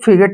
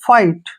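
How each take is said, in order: First: The gh is pronounced as a g sound. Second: The gh is silent and i says 'eye'. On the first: The speaker calls it wrong. "इसको हमने फिगेट नहीं पढ़ना है" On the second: The speaker calls it right. "इसको पढ़ना है फाइट"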